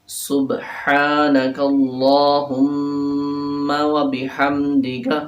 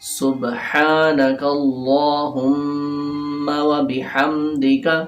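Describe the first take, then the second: No difference in how they are said.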